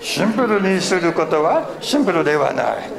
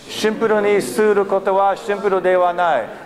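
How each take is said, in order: First: It is said in a Yoda voice. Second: It is said in a normal voice.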